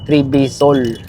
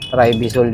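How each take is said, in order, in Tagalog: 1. Ang pangalan ay binibigkas na may aksent na Pranses ng Quebec. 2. Ang pangalan ay binibigkas na may aksent na Ingles. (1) "mga Quebecwa, ang ang bigkas dun is Tribisol" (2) "Pero tayo mga Pinoy, mga English, Tribisol yun"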